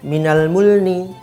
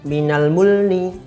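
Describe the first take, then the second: Both takes have the same delivery.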